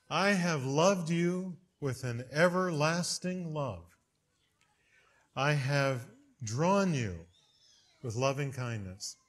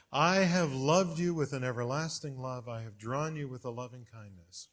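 First: Slow, tender recitation; solemn scripture reading. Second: Said in the usual way. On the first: Shown as a demonstration. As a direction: savor each word of the verse. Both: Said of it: "I want to hear those words over and over".

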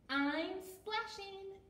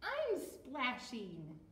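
First: High, stretched-out character voice; Fluff's voice. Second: Lightly voiced slow character; Billy's voice. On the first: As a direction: call it out high and slow. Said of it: "said Fluff". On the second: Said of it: "said Billy". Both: A narrator's reading.

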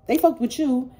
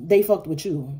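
First: Fucked punched high and loud; stress on fucked. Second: Said in the usual way. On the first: Real, not acted. Reader tells Libra again, stress on fucked. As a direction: hit fucked hard and higher in the repeat.

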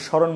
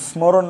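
First: স্মরণ as shoron, no m; silent m. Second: স্মরণ as smoron, m sounded; m pronounced. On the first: Teacher showing what we say, স্মরণ without m. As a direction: drop the m from স্মরণ. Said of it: "স্মরণ বলি". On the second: Teacher showing the unused form, স্মরণ with its m. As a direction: keep the m in স্মরণ. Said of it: "স্মরণ না বলে". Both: Shown as a demonstration.

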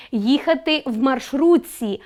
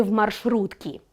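First: Said in the usual way. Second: «маршрутці» said as «маршрутки», with a hard к before the ending; wrong form. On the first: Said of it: "Наприклад". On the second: Shown as a demonstration. Teacher to the class, demonstrating the wrong form «маршрутці» said with a к. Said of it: "а не".

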